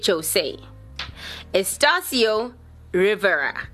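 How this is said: The name is said with an English accent.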